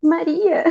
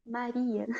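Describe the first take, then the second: First: Higher, louder, heartfelt "Maria"; emotional imagined call. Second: Quiet, gentle utterance of "Maria"; soft tender naming. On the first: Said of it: "Eu fico imaginando assim". (chamado emocionado, em voz mais aguda) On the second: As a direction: say "Maria" very softly, falling at the end. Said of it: "Jesus disse". (chamado suave, bem baixinho) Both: Acted.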